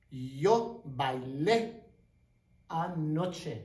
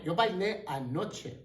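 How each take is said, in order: First: Slow demo. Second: Said in the usual way. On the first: Shown as a demonstration.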